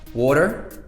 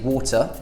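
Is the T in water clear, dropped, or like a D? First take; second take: like a D; clear. First: The T in the middle sounds like a D. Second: The T in the middle is clearly pronounced. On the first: "pronounce the T as a kind of like a D" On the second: "we either pronounce the T, like water, that's how I would say it personally"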